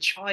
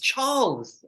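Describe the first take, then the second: First: The name sounds like 'childs'. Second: The name sounds like 'charles'. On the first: The speaker calls it wrong. "You say Childs" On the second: The speaker calls it right. "It's Charles"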